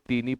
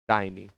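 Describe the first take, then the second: First: The first vowel sounds like 'ee'. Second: The first vowel sounds like 'eye'. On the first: The speaker calls it wrong. "इसे बहुत लोग टीनी पढ़ते हैं, आप टीनी नहीं पढ़ेंगे" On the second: The speaker calls it right. "आप इसे टाइनी पढ़ेंगे"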